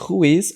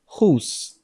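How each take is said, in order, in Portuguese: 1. É dito como duas palavras separadas. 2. É contraído em uma única sílaba. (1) "ao invés de who is" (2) "que é uma abreviação de who is"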